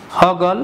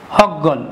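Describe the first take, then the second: First: Said in the usual way. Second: হগল said as hog-gol, the গ doubled; emphatic doubled consonant. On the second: Shown as a demonstration. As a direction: hold and punch the গ in হগল. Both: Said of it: "ব্যঞ্জন দুইবার উচ্চারণ করলে".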